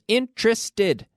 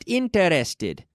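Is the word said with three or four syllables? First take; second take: three; four. First: The word is said with three syllables. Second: The word is said with four syllables. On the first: The speaker calls it right. "Three syllables" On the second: The speaker calls it wrong. "not interested"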